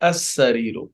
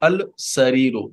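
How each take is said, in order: First: The L merges into the following S sound. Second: The article keeps a clear L sound. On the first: The speaker calls it right. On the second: The speaker calls it wrong.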